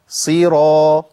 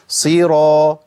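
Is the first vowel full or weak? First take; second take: full; full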